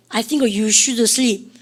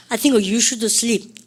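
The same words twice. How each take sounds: The two takes are said the same way.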